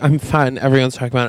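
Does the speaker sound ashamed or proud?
ashamed. It sounds ashamed and self-conscious.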